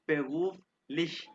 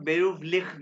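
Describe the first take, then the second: First: The final sound is a soft sh. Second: The final sound is a rough kh.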